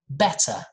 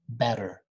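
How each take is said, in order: First: It has a British accent with a clear t. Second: It has an American accent with a soft tap. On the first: "If you want to work on your British accent" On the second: "Very soft"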